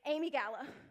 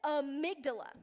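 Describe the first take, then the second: First: It is said without a 'd' sound. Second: It is said with a 'd' before 'la'. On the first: The speaker calls it wrong. "when I read it in books, it was Amy Gala" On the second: The speaker calls it right. "It is amygdala"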